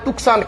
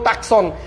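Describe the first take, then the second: First: It is said with a 'k', as 'tuk-san'. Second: It is said with a 'k', as 'tak-son'. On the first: "কেউ বলে টুকসান" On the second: "কেউ টাকসন"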